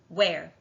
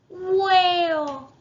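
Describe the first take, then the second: First: It is said in a normal voice. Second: It is said in a baby voice.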